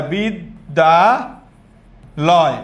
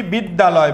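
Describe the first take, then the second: First: বিদ্যালয় stretched very slowly into separate syllables. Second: Said in the usual way. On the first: Shown as a demonstration. Teacher shows how to say it for counting, syllable by syllable. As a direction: pull বিদ্যালয় apart with long gaps between beats. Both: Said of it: "যদি এটাকে এভাবে বলি".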